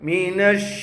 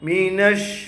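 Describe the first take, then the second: No difference in how they are said.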